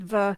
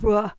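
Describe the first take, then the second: First: The v sound is strong and hard. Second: The v sound is light and soft. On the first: "really hard v" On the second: "a softer v"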